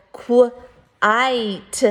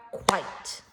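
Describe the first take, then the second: First: Quite split into kw, long i, t; separate sounds. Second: Said in the usual way. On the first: Shown as a demonstration. Teacher contrasting sounds with syllables, Quite broken into sounds. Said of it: "are the sounds". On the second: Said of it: "but the syllables are".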